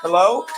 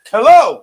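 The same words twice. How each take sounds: First: Said in the usual way. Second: Much louder, higher second hello; calling out. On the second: Real, not acted. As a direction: call out insistently to someone not answering. Repeats hello, no answer.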